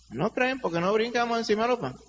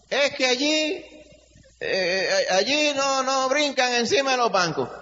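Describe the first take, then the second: First: Said in the usual way. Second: Mocking complainer. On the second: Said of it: "algunos a lo mejor dicen".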